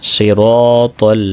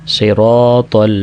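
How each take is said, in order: Both takes have the same delivery.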